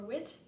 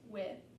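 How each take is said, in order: First: The word ends with a t sound. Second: The word ends with no final consonant. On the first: "pronounced as a T sound or a D sound" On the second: "it just won't be pronounced at all"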